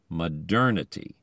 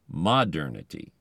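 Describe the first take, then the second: First: The stress is on the second syllable. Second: The stress is on the first syllable. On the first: The speaker calls it right. "the ending pulls the accent ahead of it" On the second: The speaker calls it wrong. "not modernity"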